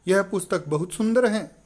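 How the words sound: It is said with surprise and wonder.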